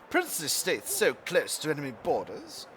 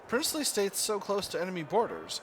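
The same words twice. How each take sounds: First: It is read in a put-on British accent. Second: It is read in the speaker's ordinary accent. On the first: The speaker calls it right. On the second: The speaker calls it wrong.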